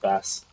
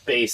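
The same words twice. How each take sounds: First: The vowel sounds like the one in 'mass'. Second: The vowel sounds like the one in 'face'. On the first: This is the speaker's habitual pronunciation. The speaker calls it wrong. "I've always pronounced it bass" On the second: This is the intended pronunciation, because the name is music themed. The speaker calls it right. "is how it's supposed to be pronounced"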